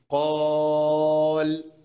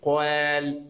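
First: The long a vowel sounds full and heavy. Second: The long a vowel sounds light and thin. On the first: The speaker calls it right. "خد صوت القاف ومشي معاها" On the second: The speaker calls it wrong. "ما قولش"

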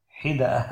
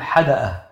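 First: The first vowel is 'i', as in hid'a. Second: The first vowel is 'a', as in had'a. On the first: "على وزن عنبة" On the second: "ويجوز الفتح، يجوز أن تقول حدأة"

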